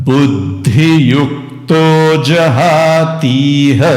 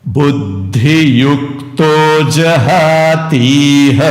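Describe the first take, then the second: No difference in how they are said.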